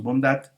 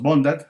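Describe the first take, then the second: First: "bondad" with DAD stressed; correct final stress. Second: "bondad" as BÓN-dad, BON louder; wrong stress on first syllable. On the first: Teacher giving the correct form, "bondad" stressed on DAD. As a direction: lean on the last syllable of "bondad". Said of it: "Decimos bondad". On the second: Teacher showing what we don't say, "bondad" stressed on BON. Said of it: "No decimos bondad". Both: Shown as a demonstration.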